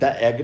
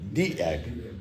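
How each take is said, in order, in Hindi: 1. Article 'thuh' जैसा सुनाई देता है, छोटे स्वर के साथ। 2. आर्टिकल 'thee' जैसा सुनाई देता है, लंबे स्वर के साथ। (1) "आप द एग नहीं बोलेंगे" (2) "आप बोलेंगे दी एग"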